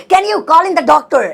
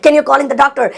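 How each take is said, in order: First: "Can you call in the doctor?" said very slowly, word by word, and higher; slow dictation pace, each word apart; slow teaching repeat. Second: Said in the usual way. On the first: Shown as a demonstration. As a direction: spell it out slowly for the class. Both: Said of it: "slow repeat for learners".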